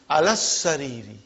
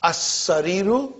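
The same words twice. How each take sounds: First: "alas sariri" with doubled s and falling ree; shadda with -i. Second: "As sariru" starting on a clean a, doubled s, rising roo; shadda with -u. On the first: Teacher showing Farooq the shadda, "alas sariri" with doubled s. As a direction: run "alas" straight into a long s. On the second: Teacher asking how it is pronounced, "As sariru" with doubled s. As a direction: hold the s in "As sariru". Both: Shown as a demonstration. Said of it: "It's a shadda".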